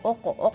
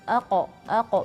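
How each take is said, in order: First: The first vowel sounds dark, thick and rounded. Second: The first vowel sounds light, thin and flat. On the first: The speaker calls it wrong. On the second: The speaker calls it right.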